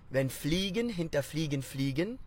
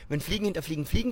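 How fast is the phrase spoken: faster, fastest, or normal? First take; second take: faster; fastest. First: The phrase is spoken a little faster. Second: The phrase is spoken faster still. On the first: "Say it with me, a little faster" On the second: "Let's turn it up one more"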